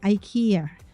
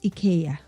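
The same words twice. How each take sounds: First: IKEA is said with the American pronunciation. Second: IKEA is said with the local pronunciation. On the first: This is how it is said in the US. "in the U S or somewhere else they say IKEA" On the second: This is how it is said locally. "But actually where we are it's IKEA"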